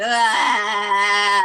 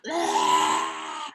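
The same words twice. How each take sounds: First: A loud, open ah from the throat; sounding it out. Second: A much lower, shouted ah; releasing shout. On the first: Showing listeners how to sound out tension, a loud open ah. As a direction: let one full ah ring out. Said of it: "just sound it out". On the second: Telling tense listeners to get it out, a deep shouted ah. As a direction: push the tension out in one deep yell. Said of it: "get it out". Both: Shown as a demonstration.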